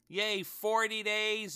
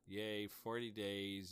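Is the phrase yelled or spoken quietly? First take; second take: yelled; spoken quietly. First: The phrase is yelled loudly. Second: The phrase is spoken softly without yelling.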